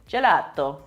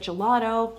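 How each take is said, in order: First: It is said in an Italian accent. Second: It is said in a plain American accent.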